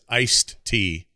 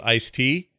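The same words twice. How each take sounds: First: The d sound before tea is pronounced. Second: The d sound before tea is dropped. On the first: The speaker calls it right. "It's iced tea" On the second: The speaker calls it wrong. "there's no such thing as iced tea"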